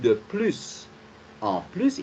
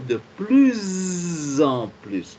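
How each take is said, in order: First: Plus is not linked to en with z. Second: Plus is linked to en with z. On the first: The speaker calls it wrong. "on ne peut pas dire" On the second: The speaker calls it right. "il faut dire de plus en plus"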